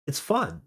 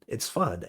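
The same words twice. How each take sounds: First: It's fun, pitched high with a bright rising end; chirpy insistence. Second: Dropped-down repeat. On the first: To coworkers, defending the lunches: high, rising, chirpy. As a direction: sell "fun" upward, eager and light. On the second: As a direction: let "fun" sink, soft and settled. Repeats it, flatter and quieter. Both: Retold or imitated.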